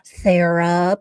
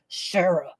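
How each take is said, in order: First: The name is called out gently and kindly. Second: The name is yelled furiously and demonically.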